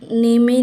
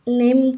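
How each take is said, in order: First: It has an ay vowel and a sounded final e. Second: It is one syllable with a silent final e. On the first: The speaker calls it wrong. "नेमे नहीं" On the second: The speaker calls it right. "हम नेम कहते हैं इसको"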